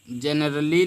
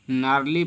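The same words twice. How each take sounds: First: जनरली with the G voiced as J; spelled-out जनरली, first letter sounded; literal misreading. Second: नार्ली starting on N, silent G; नार्ली said "naar-lee"; correct reading. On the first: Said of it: "जी को नहीं पढ़ेंगे". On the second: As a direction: drop the first G in नार्ली. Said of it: "नार्ली पढ़ेंगे". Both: Shown as a demonstration.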